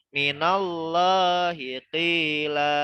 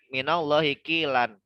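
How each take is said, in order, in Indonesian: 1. Frasa ini berakhir pada vokal panjang terbuka. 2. Frasa ini berakhir dengan bunyi n tambahan. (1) "dibacanya ... karena wakaf atau berhenti di sini" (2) "Tadinya kan ... Di sini tanwin kan"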